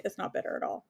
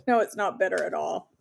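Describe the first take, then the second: First: Whispered, much softer repeat; soft whispered echo; whispered aside. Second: Said in the usual way. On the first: Real, not acted. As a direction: breathe it to yourself. Repeats answer under her breath.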